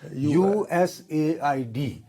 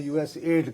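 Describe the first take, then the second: First: The name is spelled out letter by letter. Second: The name is said as one blended word. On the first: This is how Americans say it. "जब American बात करेगा जी वो ये कहेगा" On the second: This is the habit of people at home. "हमें एड्स की बीमारी की तरह उसको यूएसएड कहने की बीमारी है"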